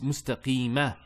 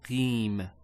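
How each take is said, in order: First: The word ends with a short final 'a' vowel. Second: The word ends on a consonant, with no vowel. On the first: The speaker is continuing without a pause. "There's a fatha there" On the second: The speaker is pausing at this word. "we don't pronounce that fatha when we stop"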